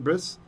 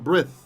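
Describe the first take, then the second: First: The word ends with an s sound. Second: The word ends with a th sound. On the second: This is the ancient pronunciation. "in ancient pronunciation"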